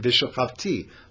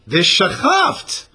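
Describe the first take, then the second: First: The word ends with a final 'ee' vowel. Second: The word ends on a consonant with no final vowel. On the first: It is the form as written, meaning I will lie down. "really it's written v'shachavti" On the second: It is the form that is read aloud. "but we don't pronounce it the way it's written"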